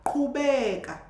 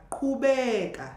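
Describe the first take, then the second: No difference in how they are said.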